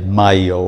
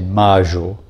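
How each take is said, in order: First: The middle consonant is a 'y' sound. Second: The middle consonant is a 'zh' sound. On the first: "I don't say mayo" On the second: "In Argentina, we pronounce them je"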